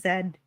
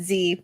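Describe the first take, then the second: First: The letter is said as 'zed'. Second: The letter is said as 'zee'. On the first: The speaker calls it right. "but it should have been Zed" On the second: The speaker calls it wrong. "We said Z"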